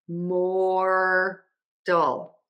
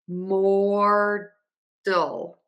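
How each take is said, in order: Both takes have the same delivery.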